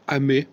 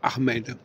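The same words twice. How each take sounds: First: The final D is silent. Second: The final D is sounded. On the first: The speaker calls it right. "ou bien alors" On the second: The speaker calls it wrong. "mais pas"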